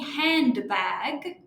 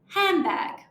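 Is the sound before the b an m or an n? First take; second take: n; m. First: The middle is said with n and d. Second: The middle is said as m before b. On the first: "instead of saying handbag" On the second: "we might say handbag"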